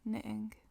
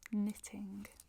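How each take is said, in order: First: The middle T is dropped. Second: The middle T is clearly pronounced. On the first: This is how people in Manchester say it. "à Manchester, c'est il est plus probable qu'on dise" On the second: This is the formal way of saying it. "c'est la façon formale de dire"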